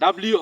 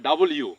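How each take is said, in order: First: It is said as one blended word, dabliu. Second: It is said as two words, double you. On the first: The speaker calls it wrong. "ডাব্লিউ হবে না" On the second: The speaker calls it right. "হবে ডাবল ইউ"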